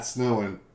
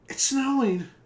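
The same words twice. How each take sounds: First: It is said with weary disappointment. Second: It is said with childlike excitement.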